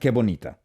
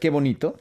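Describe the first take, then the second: First: It sounds mocking and sarcastic. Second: It sounds warm and admiring. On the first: Someone has been caught doing something bad. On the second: Something is genuinely lovely.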